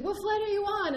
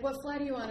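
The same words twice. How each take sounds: First: High, loud repeated question; retold insistent question. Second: Said in the usual way. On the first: Airline lady repeating to the winded traveler, loud and high. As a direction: press for an answer, loud and high. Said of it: "she's like". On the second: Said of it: "the lady's like".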